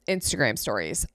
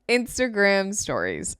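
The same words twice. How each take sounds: First: It is said fast. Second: It is said slowly.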